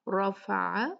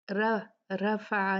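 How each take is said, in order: First: "रफ़अ" with a full, thick "र"; "रफ़अ" opening on a heavy R; heavy raa. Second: "रफ़अ" with a thin, light "र"; "रफ़अ" without the heavy R; wrongly thin raa. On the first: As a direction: back the vowel after "र" in "रफ़अ", almost "ro". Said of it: "कैसे पढ़ेंगे?". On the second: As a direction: flatten "र" to a fronted "ra" in "रफ़अ". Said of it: "नहीं पढ़ेंगे". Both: Shown as a demonstration.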